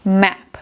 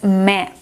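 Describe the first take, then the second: The two takes are said the same way.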